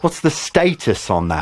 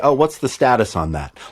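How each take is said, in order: First: It is said with a British accent. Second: It is said with an American accent.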